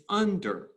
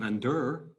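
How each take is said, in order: First: Under as UN-der, first syllable high and strong; stress on first syllable. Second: Under as un-DER, last syllable pushed; wrong second-syllable stress. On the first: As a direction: punch un-, let -der fall away in under. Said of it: "because it's strong, weak". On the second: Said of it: "It's not under". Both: Shown as a demonstration.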